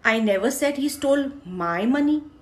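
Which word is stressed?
my. The stress falls on the word my. Someone else's money was stolen. "मैंने ये नहीं कहा उसने मेरे पैसे चुराए, किसी और के चुराए हैं"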